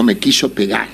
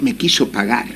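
First: "pegar" with a clear e in the first syllable; actual word pegar. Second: "pagar" with a clear open a in the first syllable; misheard pagar. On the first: The storyteller corrects himself: "pegar" with an e. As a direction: say "pegar", the way the man really said it. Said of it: "Y el tipo dijo". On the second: The storyteller shows his mishearing: "pagar" with an a. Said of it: "Y yo le entendí". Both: Shown as a demonstration.

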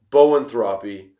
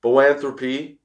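First: Boanthropy said BOH-un-THRAH-pee; first-guess pronunciation. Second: Boanthropy said boh-AN-thruh-pee; tentative corrected pronunciation. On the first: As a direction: say boanthropy with a full "throp", AN reduced. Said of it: "I think it's pronounced this way". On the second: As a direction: stress AN in boanthropy, with "thruh" reduced. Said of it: "I think it's boanthropy". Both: Shown as a demonstration.

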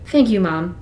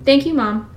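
First: Said in the usual way. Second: Higher, strained thank you; fighting tears. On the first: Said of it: "Now repeat after me". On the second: Acted. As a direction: hold back tears as you repeat it. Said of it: "The tears were coming".

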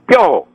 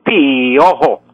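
First: Said in the usual way. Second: "piojo" drawn out as pi-O-jo; diphthong split into hiatus. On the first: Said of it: "tengo que decir piojo". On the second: Shown as a demonstration. Professor shows the wrong piojo, i held apart from o. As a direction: stretch the i of "piojo" into its own syllable. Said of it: "no puedo decir piojo".

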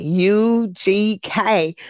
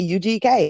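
First: U G K very slow and stretched, Southern drawl; imitated Southern drawl. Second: Said in the usual way. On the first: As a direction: mimic a drawling "U G K", each letter held long. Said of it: "kind of Southern drawl to it". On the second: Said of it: "I thought everybody said".

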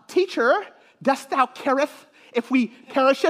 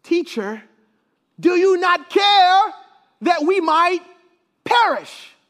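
First: Mock old English Bible reading, timid; hammed-up meek disciple, halting and polite; meek and mild. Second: High, loud, drawn-out plea; pleading disciples. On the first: Shown as a demonstration. Preacher parodying a flat King James reading, meek and mild. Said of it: "all meek and mild". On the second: Acted. Disciples appealing to sleeping Jesus in the storm, pleading loudly. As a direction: build from a plain address to a raised outcry. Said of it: "turn to him and they say".

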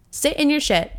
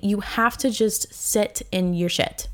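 First: "Sit in your shit" thrown out higher, each word punched; emphatic repeat. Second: Said in the usual way. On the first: Shown as a demonstration. Urging heartbroken listeners, emphatic high "Sit in your shit". Advice, then repeated with force.

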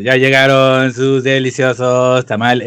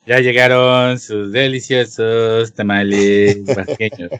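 First: Tamale vendor recording. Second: Slow, lower vendor loudspeaker call; tamale vendor recording. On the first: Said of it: "la gra". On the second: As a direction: drag it out like the street recording. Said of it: "la clásica voz de". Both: Retold or imitated.

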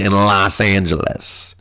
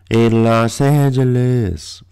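First: Said in the usual way. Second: Slow, stretched put-on voice; mock drawn-out echo. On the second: Telling listeners what they won't see in L A, mock-drawling. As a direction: draw out every syllable of the city's name.

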